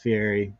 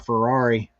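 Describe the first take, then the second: First: The name is said as fee-ER-ee. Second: The name is said like the word Ferrari. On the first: The speaker calls it right. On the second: The speaker calls it wrong.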